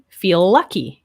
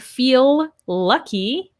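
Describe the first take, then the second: First: The two L sounds blend into one. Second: Both L sounds are said separately and clearly. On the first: The speaker calls it right. "So you can hear how that links" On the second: The speaker calls it wrong. "So I would not say feel lucky"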